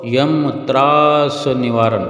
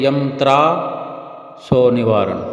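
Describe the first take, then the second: First: The middle word is said as one word, traas. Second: The middle word is split into tra so. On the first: The speaker calls it right. "लिखा हुआ ये है" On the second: The speaker calls it wrong. "अनेक अनेक गुरुमुख प्रेमी ऐसा पढ़ते हैं"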